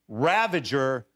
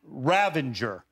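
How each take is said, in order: First: The word has no n sound before g. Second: The word has an n sound before g. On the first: The speaker calls it right. "we got to say it right. It's Ravager" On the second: The speaker calls it wrong. "not Ravenger"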